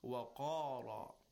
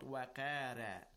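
First: The r is heavy, with a rounded mouth. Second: The r is light, with a flat mouth. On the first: The speaker calls it right. "You round your mouth and give it a heavy sound" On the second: The speaker calls it wrong. "not wa qara. You don't smile or flatten your mouth"

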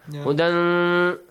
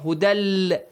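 First: The final n is pronounced as a clear n. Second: The final n merges into l, with no nasal. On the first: The speaker calls it wrong. "No way" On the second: The speaker calls it right. "There is no nasal sound"

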